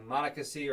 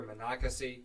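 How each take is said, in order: First: Monocacy said the first of two ways; one pronunciation. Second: Monocacy said the second of two ways; alternative pronunciation. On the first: Offering listeners a choice of names, one pronunciation of Monocacy. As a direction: give one local variant of Monocacy. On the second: Unsure of the town's name, alternative pronunciation of Monocacy. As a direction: give the other variant of Monocacy. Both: Shown as a demonstration. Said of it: "depending how you pronounce it".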